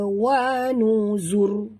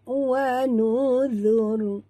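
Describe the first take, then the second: First: The consonant is a buzzing 'z' sound. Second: The consonant is a soft 'th' sound. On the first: The speaker calls it wrong. "jangan sebut zai. Jangan baca wa nuzur. Ha, tak betul tu kalau baca macam tu" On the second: The speaker calls it right.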